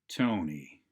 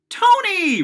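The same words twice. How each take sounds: First: It is quiet, slow, with pitch going down. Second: It is loud, quick, with pitch going up. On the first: The person is not welcome to join. The speaker calls it wrong. "Volume down, rate down, inflection down" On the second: The person is welcome to join. The speaker calls it right. "Inflection up, volume up. ... Rate up"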